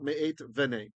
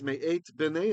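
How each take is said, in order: First: The second word starts with a soft v sound. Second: The second word starts with a hard b sound. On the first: The speaker calls it wrong. "and not me eight venei" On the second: The speaker calls it right. "that's why it's me eight bnei"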